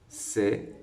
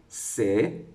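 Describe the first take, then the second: No difference in how they are said.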